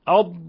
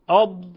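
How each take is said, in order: Both takes have the same delivery.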